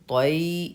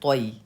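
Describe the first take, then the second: First: The syllable is said slowly and hard. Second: The syllable is said quickly and softly. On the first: The speaker calls it wrong. "ये भी गलत है" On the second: The speaker calls it right. "नर्म आवाज़ के साथ जल्दी से पढ़ना है"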